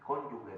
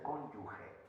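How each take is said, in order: First: Cónyuge with a hard g, like cónyugue; the wrong way: cónyuge with a hard g; mispronounced cónyuge. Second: Cónyuge with the soft Spanish j sound, cónyuxe; the right way: cónyuge with a j sound; correct cónyuge. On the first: Retold or imitated. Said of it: "no se dice". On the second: Shown as a demonstration. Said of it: "se dice cónyuge".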